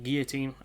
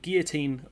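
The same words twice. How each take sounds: First: The word is said in an American way. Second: The word is said in a British way.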